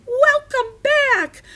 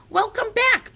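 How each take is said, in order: First: Very high, slow squeaky shout. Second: High, brisk called greeting; mad scientist's shout. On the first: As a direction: shout it high and loud, drawn out. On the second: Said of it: "the mad scientist shouted". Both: A narrator's reading.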